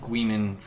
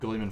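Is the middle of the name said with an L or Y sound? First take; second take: Y; L. First: The middle of the name has a Y-like sound. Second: The middle of the name has an L sound. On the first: The speaker calls it right. "it's like Guiman. It's it's like a fucking French word" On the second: The speaker calls it wrong. "I also mispronounce Gulliman flesh"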